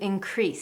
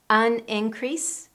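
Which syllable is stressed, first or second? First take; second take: second; first. First: The stress is on the second syllable. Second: The stress is on the first syllable. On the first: It is a verb. "how we need to change the stress" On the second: It is a noun. "how we need to change the stress"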